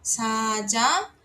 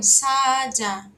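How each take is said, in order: First: "Saja" drawn out, rising on the last syllable; word repeat demonstration. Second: "saja" loud, long first A, falling at the end; drawn-out word demonstration. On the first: Teacher repeats the word for lion, rising dictation. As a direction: say "Saja" slowly with a lifted ending. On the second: Teacher introduces the Korean word for lion, emphatic demonstration. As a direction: stretch "saja" loudly and let it fall. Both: Shown as a demonstration. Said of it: "Próxima é leão".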